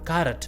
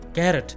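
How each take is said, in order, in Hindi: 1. पहला स्वर 'ah' जैसा बोला जाता है। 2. पहला स्वर 'eh' जैसा बोला जाता है। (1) "इसका सही प्रोनाउंसिएशन है" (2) "ज्यादातर लोग गलत बोलते हैं"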